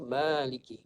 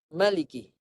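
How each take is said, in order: First: The first vowel is held long. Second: The first vowel is said short. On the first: "Kita kekalkan alif" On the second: "dibuang alif, dibaca dengan maliki"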